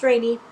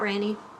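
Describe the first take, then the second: First: The first vowel sounds like 'rain'. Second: The first vowel sounds like 'ran'. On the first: The speaker calls it right. "it's Rainy" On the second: The speaker calls it wrong. "not Ranny"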